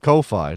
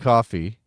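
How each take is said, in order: First: It is pronounced to rhyme with Wi-Fi. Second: It is pronounced like the word coffee. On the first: The name is read the way it is spelled. "because it looks like Ko-fi, like Wi-Fi" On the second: The name comes from buy me a coffee. "It's either coffee because it used to be buy me a coffee"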